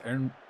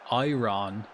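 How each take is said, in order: First: It is said with a local Scottish pronunciation. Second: It is said with a non-local pronunciation. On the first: This is how it is really said. The speaker calls it right. "it's actually pronounced" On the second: This is how most people say it. The speaker calls it wrong. "People pronounce it"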